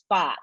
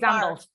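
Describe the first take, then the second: First: The word is said with no R sound. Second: The word is said with a strong R sound. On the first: "Aussies, we say art and fart" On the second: "he has the strong R. ... He says"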